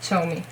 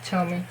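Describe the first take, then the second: First: The name begins with a ch sound. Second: The same.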